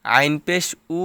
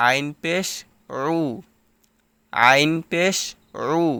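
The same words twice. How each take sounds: First: উ as a plain vowel, like alif; plain উ after আইন; wrong pronunciation. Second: আইন and রু squeezed from the middle of the throat. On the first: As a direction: say আইন পেশ উ with no throat sound. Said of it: "এরকমভাবে উচ্চারণ করা যাবে না". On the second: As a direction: say আইন পেশ রু with a pharyngeal ain, no r. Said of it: "মধ্যখান হইতে উচ্চারণ হবে". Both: Shown as a demonstration.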